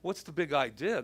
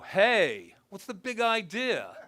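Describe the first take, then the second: First: It is said as a plain, curious question. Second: It is said as an indignant challenge.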